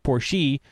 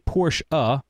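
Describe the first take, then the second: First: The final E is not sounded as uh. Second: The final E is sounded as uh. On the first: The speaker calls it wrong. "You wouldn't say Porsche" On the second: The speaker calls it right. "You say the E like uh. You'd say Porsche uh"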